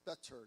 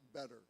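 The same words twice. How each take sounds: First: The middle T is a clear, crisp t. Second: The middle T is a quick flap. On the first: This is an older, formal American style. "he does not produce the flapped intervocalic T" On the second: This is the everyday modern American style. "The way I would say it normally"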